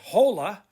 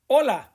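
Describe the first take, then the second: First: The h sound is pronounced at the start. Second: The word starts directly with the vowel sound. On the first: The speaker calls it wrong. "Don't say hola" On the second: The speaker calls it right. "Pretend the H is not even there"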